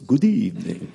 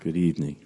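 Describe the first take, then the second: First: It is said in a put-on Dracula voice. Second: It is said in a normal speaking voice.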